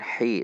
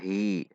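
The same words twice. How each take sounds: First: The h is harsh, from the mid throat. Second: The h is light and breathy. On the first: The speaker calls it right. "Namun hi dari tengah tenggorokan" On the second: The speaker calls it wrong. "tidak dibaca hi"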